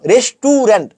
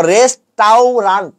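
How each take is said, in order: First: "রেস্টুরেন্ট" as res-TU-rent, middle vowel lengthened; "রেস্টুরেন্ট" the common wrong way, res-tuu-rent; students' mispronunciation. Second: "রেস্টাউরান্ট" very slowly as RES-TAU-RANT; slow, sounded-out "রেস্টাউরান্ট" ending in "ant"; spelling pronunciation. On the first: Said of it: "এই যে এটা তোমরা বানাও". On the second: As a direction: break "রেস্টাউরান্ট" into three drawn-out syllables. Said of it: "পড়তে সময় পড়ো". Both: Shown as a demonstration.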